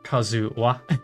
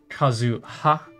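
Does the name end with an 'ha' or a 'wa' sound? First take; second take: wa; ha. First: The last syllable starts with a w sound. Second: The last syllable starts with an h sound. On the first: The speaker calls it wrong. "not Kazuwa" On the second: The speaker calls it right. "So it's pronounced Kazuha"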